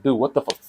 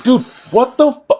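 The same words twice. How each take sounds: First: Said in the usual way. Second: High, loud disbelieving shriek; shocked outburst. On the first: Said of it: "I was in my head, I was like". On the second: Retold or imitated. Student at teacher taking his exam, shocked high shriek. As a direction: squeal it in total disbelief, cut off. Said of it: "I'm like".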